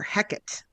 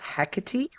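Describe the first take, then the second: First: The name ends without a final 'ee' sound. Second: The name ends with an 'ee' vowel sound. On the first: This is how an old playwright pronounced it. "without the E sound at the end" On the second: This is the commonly accepted modern pronunciation. "the most common and sort of generally accepted pronunciation"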